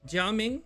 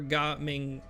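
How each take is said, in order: First: The name is read with a Mandarin pronunciation. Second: The name is read with a Cantonese pronunciation. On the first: "Jia Ming in Mandarin" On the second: "Ga Ming in Cantonese"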